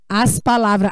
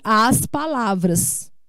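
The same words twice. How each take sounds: First: The final s sound is dropped. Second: The final s sound is clearly pronounced. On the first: The speaker calls it wrong. "As pessoas dizem" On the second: The speaker calls it right. "Como eu estou falando aqui"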